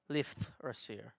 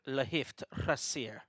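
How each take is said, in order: First: The name is said plainly, without a foreign accent. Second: The name is said with an exaggerated foreign accent. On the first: The speaker calls it right. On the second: The speaker calls it wrong.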